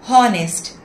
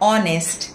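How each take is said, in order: First: The word begins with an audible h sound. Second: The word begins with a vowel, no h sound. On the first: The speaker calls it wrong. "అంతేకాని హానెస్ట్, హవర్ అని చెప్పకూడదు" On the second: The speaker calls it right. "ఆనర్, ఆనెస్ట్, అవర్ అనాలి"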